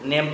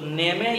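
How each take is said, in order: First: The word ends on the consonant without a vowel. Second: The word ends with an added vowel sound. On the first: The speaker calls it right. "नेम तो नहीं पढ़ सकते थे" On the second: The speaker calls it wrong. "यदि ई का sound होता तो नेमे या नेमी पढ़ते"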